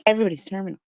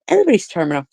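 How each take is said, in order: First: Quieter repeat. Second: Said in the usual way. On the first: Real, not acted. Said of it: "repeats her own line". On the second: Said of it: "first take".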